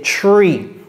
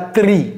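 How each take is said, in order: First: The syllable sounds like the English word tree. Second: The syllable is said with French-style sounds. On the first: The speaker calls it right. "c'est tree. Tree, comme l'arbre" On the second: The speaker calls it wrong. "C'est pas tri"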